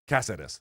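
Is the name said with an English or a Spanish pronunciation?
Spanish. The name is said with Spanish-style pronunciation. The speaker calls it right. "No, Cáceres is what exactly"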